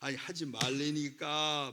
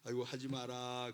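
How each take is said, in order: First: It is said in a louder, raised voice. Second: It is said in a soft, mild voice.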